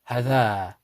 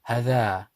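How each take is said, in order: No difference in how they are said.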